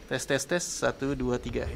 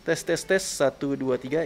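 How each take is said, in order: First: Tes suara lewat mikrofon belakang; tes mic belakang. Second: Tes suara lewat mikrofon depan; tes mic depan. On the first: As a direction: hitung untuk uji mic belakang. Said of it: "ini mic belakangnya". (uji mikrofon belakang) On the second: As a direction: hitung pelan-pelan untuk uji mic depan. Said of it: "menggunakan mic depannya". (uji mikrofon depan) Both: Shown as a demonstration.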